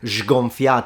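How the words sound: It is said with a Neapolitan accent. "he just says it with sgonfiato"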